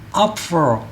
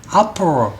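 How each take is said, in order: Both takes have the same delivery.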